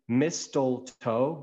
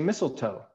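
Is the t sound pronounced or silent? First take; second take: pronounced; silent. First: The t sound is pronounced. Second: The t sound is silent. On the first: The speaker calls it wrong. "we don't say mistletoe" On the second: The speaker calls it right. "we say mistletoe"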